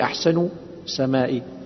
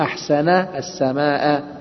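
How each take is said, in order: First: The last word ends with an 'i' vowel. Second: The last word ends with an 'a' vowel. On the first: It asks what made the sky beautiful. The speaker calls it wrong. "لا تقولي أحسن سمائي" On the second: It exclaims how beautiful the sky is. The speaker calls it right. "قولي ما أحسن السماء"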